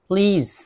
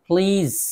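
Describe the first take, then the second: Both takes have the same delivery.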